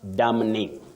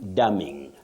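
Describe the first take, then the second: First: The N before the ending is pronounced. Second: The N before the ending is silent. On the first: The speaker calls it wrong. "not damning" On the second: The speaker calls it right. "the N is silent, not pronounced"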